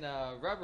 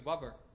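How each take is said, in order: First: The word begins with a clear R sound. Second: The word begins with a W-like sound. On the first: The speaker calls it right. "instead of saying rubber" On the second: The speaker calls it wrong. "all my R's sounded like W's"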